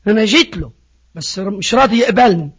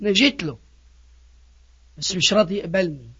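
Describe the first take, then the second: First: Said in the usual way. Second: Soft, low acted grumble; subdued complaint. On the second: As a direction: complain too softly to be heard properly. Acted reluctant complaint, first take.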